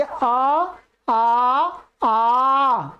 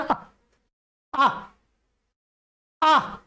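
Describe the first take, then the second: First: आ held full and steady; proper vowel length. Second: आ clipped short each time, rushed; too short vowels. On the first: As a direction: give each आ its full length, the right way. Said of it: "जैसा उच्चारण होना चाहिए". (आ को पूरी मात्रा से ठहरकर बोलना) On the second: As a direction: say आ short and hurried, the wrong way. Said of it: "ऐसे बोलना जल्दी से". (आ को छोटा और जल्दी, गलत ढंग से बोलना) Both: Shown as a demonstration.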